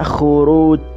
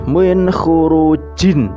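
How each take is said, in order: First: The word stops on the final consonant. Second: The word ends with a full vowel and n. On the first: This is how it is read when stopping. "tapi dibaca khuruj" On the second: This is how it is written. "tulisannya seperti itu"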